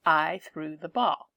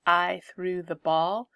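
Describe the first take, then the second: First: Said in the usual way. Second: "I" hit first and rising; emphasis on "I" at the start; stress on I. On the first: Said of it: "and I am the doer". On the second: Shown as a demonstration. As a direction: lean on the doer "I". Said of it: "The emphasis is on the I".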